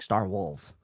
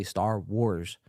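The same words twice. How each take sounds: First: "Star Wars" slurred into "Star Walls"; tipsy mispronunciation. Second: "Star Wars" said slowly and carefully; careful attempt. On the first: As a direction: trip over "Star Wars", the r in Wars turning to l. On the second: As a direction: sound out "Star Wars" properly, with a clear r in Wars. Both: Shown as a demonstration. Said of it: "I can't say Star Wars".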